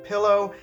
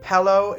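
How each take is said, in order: First: It is said the standard way. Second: It is said the Quebec English way. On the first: "instead of pillow" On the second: "Quebec English speakers say pillow"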